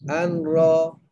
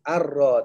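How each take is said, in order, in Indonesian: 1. Bunyi n bersengau dan terdengar sebelum r. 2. Bunyi n menyatu penuh ke dalam r yang digandakan. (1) "Kenapa buat macam tu? Tak boleh ada nun" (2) "Arra tu"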